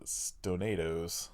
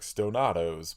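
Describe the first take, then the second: First: It is said the usual way, not like tostados. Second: It is said to rhyme with tostados. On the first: The speaker calls it right. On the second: The speaker calls it wrong.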